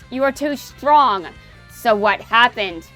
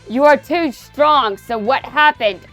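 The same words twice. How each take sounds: First: It is delivered in a calmer, less strained voice. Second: It is delivered with intense, strained emphasis. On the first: The speaker is protecting the voice. "I'll just stop venting about the government to pronounce these lines so I at least maintain my vocal cords" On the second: The speaker is venting frustration. "I was all like that to, to um, emphasize a strong point here"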